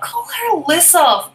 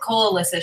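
First: It is said in an annoyed, whiny voice. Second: It is said in a calm, matter-of-fact voice. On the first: The speaker is petulant and irritated. "that was the kind of tone she used" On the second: The speaker is simply giving a helpful heads-up. "I just read it as"

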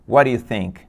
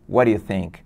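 No difference in how they are said.

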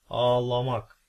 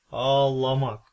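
Both takes have the same delivery.

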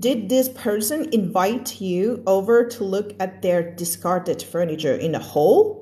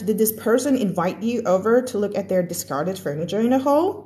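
First: The sentence is read slowly and carefully. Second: The sentence is read quickly and connected. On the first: "เมื่อกี้อ่านแบบช้าๆ" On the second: "จะอ่านให้ฟังแบบเร็วๆแล้วลองฟังเสียงความแตกต่างนะคะ"

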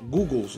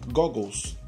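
First: The first vowel sounds like 'goo'. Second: The first vowel sounds like 'got'. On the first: This is how people commonly say it. The speaker calls it wrong. "o pessoal fala assim" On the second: This is the proper way to say it. The speaker calls it right. "o correto seria Goggles"

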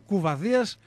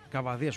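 First: The first vowel of the name is 'ou'. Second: The first vowel of the name is 'a'. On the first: The speaker calls it wrong. "ούτε κουβαδίας" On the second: The speaker calls it right. "Βασίλης Καβαδίας"

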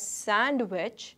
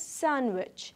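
First: The d sound is clearly pronounced. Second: The d sound is left out. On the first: The speaker calls it wrong. "we do not pronounce it as sandwich" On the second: The speaker calls it right. "we pronounce it as sandwich. D is silent in the word sandwich"

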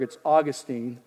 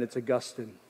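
First: It is an everyday, local-sounding pronunciation. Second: It is a more refined, sophisticated-sounding pronunciation. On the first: "if you're from Pittsburgh" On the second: "If you're from heaven, ... A little more sophisticated"

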